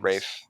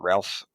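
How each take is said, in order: First: It is said without an L sound, like Rafe. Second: It is said with an L sound, like Ralph. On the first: The speaker calls it right. "Sorry, Rafe" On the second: The speaker calls it wrong. "is that how you say it?"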